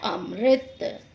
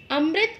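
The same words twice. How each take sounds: First: अमृत as am-rit, m running into r; correct अमृत. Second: अमृत broken into a-ma-rit; mispronounced अमृत. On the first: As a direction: say अमृत with no vowel after m. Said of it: "उसका सही उच्चारण होता है". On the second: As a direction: say अमृत wrongly, with an extra vowel after m. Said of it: "जबकि उसका सही उच्चारण". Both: Shown as a demonstration.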